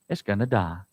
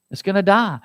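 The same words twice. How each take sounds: First: Very low, soft, dark; ominous hush. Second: Said in the usual way. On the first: Real, not acted. Preacher telling congregation the lion's fate, hushed. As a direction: say it low like a verdict.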